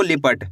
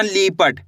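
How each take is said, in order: First: Said in the usual way. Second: लिपट with the first vowel drawn out to "lee-pat"; खींचकर गलत उच्चारण. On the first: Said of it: "इसी तरीके से पढ़ना आपको लिपट". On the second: Shown as a demonstration. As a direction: stretch the लि of लिपट into a long ली. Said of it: "ज़्यादा खींच के नहीं पढ़ना". (लिपट की छोटी इ को खींचकर "लीपट" बोलें)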